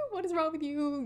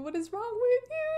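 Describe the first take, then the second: First: Said in the usual way. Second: Exasperated. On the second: Real, not acted. High exasperated repeat.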